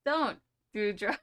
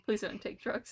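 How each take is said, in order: First: Slow, drawn-out mock warning in "Don't do drugs."; mock PSA. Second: "please don't take drugs." said sincerely, no joking; mean it as a real, plain plea with "please don't take drugs.". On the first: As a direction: deliver "Don't do drugs." as a hammed-up public service slogan, slowly. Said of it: "I'm just kidding". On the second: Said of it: "I'm just kidding. Please don't". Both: Shown as a demonstration.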